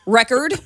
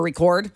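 First: "Record" stressed on the first syllable, REK-erd; noun pronunciation. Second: "record" stressed on the second syllable, ri-KORD; verb pronunciation. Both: Shown as a demonstration. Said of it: "however you wanna say it".

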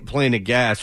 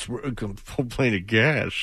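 First: Said in the usual way. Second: "Full plane of gas" said slow and softer; slow repeat of misread. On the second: Shown as a demonstration. Host mocking his own misread, slow and softer. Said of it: "That's what I got".

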